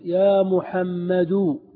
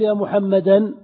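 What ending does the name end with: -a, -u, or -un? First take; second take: -u; -a. First: The name ends in a short -u vowel. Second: The name ends in a long -a vowel. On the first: The speaker calls it right. "كذا تقول يا محمد" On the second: The speaker calls it wrong. "لا تقول يا محمدا بالنصب"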